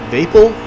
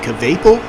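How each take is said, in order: First: The first K sound is left silent. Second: The first K sound is pronounced.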